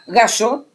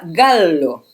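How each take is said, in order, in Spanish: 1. La consonante del medio suena como la y en español. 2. La consonante del medio es una l doble, larga. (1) "Él lo pronuncia gallo" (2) "se pronuncia gallo, porque es italiano"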